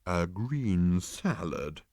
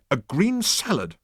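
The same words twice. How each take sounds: First: Disapproving. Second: "green salad" hit firmly, higher and louder; emphatic. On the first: Animal repeating Arthur's order, slow and disapproving. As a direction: repeat it back with slow disdain. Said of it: "rolling his eyes disapprovingly". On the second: Arthur insisting to the animal, emphatic and higher. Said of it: "said Arthur emphatically". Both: A narrator's reading.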